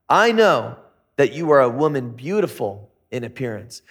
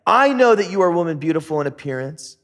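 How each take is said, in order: First: Flirty come-on. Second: A touch of worry, quicker and urgent; worried. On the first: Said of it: "talking 'cause he's got game". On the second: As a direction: rush it out as a worried husband. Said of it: "He's worried. He says". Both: Acted.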